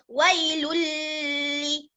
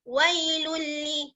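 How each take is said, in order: First: It is read with a long nasal hum. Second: It is read quickly with no nasal hum. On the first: The speaker calls it wrong. "Jangan dibaca wailulli. Salah" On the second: The speaker calls it right. "kita kena cepat-cepat"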